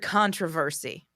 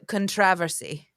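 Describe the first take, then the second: First: It is said the American way. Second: It is said the British way. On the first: "you know the word controversy" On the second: "when a British person says controversy, they say"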